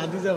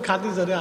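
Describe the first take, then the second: First: The name begins with an h sound. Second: The name begins with a kh sound. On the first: This is the regional dialect form. "খাদিজারে হাদিজা বানাইছেন" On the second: This is the standard form. "খাদিজারে হাদিজা বানাইছেন"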